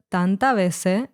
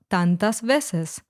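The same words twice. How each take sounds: First: "tanta veces" with the final S sounds dropped; "tanta veces" ending openly on vowels, southern Spanish style. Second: "tantas veces" with both final S sounds clearly said; "tantas veces" in full standard form, each final S kept; final S pronounced. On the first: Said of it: "letter S was dropped from words". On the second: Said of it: "instead of". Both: Shown as a demonstration.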